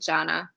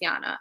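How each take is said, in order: First: The name begins with a J sound. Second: The name begins with a Y sound. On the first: This is how the speaker's group says it. "we just say it Jana" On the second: This is how it is said in South Africa. "In South Africa, we pronounce Jana as Yana"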